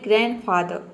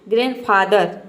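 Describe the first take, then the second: First: The final r sound is left silent. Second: The final r sound is fully pronounced. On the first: The speaker calls it right. "आपको र का sound नहीं निकालना है, आपको केवल बोलना है ग्रैंडफादर" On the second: The speaker calls it wrong. "कभी कभी पूरा र प्रोनाउंस करते हैं, ... तो आपका प्रोनाउंसिएशन रॉन्ग हो जाएगा"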